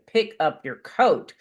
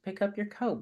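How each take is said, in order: First: The voice sounds sharp and irritated. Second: The voice sounds calm and not irritated.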